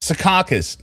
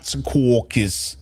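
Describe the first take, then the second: First: Secaucus with an open "kah" middle, "se-KAH-kus"; correct pronunciation. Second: Secaucus with a rounded "kaw" middle, "se-KAW-kis"; wrong pronunciation. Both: Shown as a demonstration. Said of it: "No, not Secaucus".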